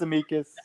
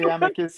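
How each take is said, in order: First: Amicus pronounced uh-MEE-kus; second-syllable stress. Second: Amicus pronounced AM-uh-kus; first-syllable stress. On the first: Retold or imitated. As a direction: lean on a long ee inside Amicus. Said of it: "He says Amicus". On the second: Shown as a demonstration. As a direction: lean on the short a that opens Amicus. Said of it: "I say Amicus".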